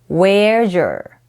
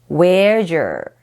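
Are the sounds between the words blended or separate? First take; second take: blended; blended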